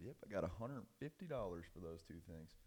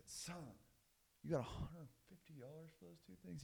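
First: Said in the usual way. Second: High, soft incredulous question; dad echoing his son, pitched up in disbelief; acted disbelief.

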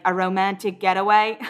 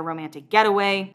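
First: Put-on amateurish Australian accent; attempted Australian accent. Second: Said in the usual way. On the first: Upset Corey asking about Justin, in a shaky-attempt Australian accent. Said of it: "my attempt at an Australian accent". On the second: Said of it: "That was my attempt at an Australian accent".

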